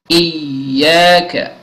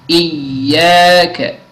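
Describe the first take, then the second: The two takes are said the same way.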